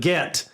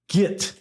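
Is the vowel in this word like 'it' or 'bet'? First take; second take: bet; it. First: The vowel sounds like the one in 'bet'. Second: The vowel sounds like the one in 'it'. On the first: The speaker calls it right. "G E T" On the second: The speaker calls it wrong. "G I T, which everybody is saying instead of get"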